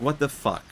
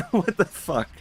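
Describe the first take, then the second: First: A half-hearted, exasperated curse; mock exasperation. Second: High-pitched curse breaking into laughter; laughing disbelief. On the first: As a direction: act out the king's annoyance, lightly. King fails the trial, exasperated. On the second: Acted. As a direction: say it again while cracking up.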